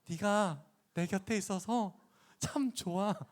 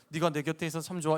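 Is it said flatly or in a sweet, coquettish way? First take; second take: sweet, coquettish; flatly. First: It is said in a sweet, coquettish way. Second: It is said flatly, without feeling.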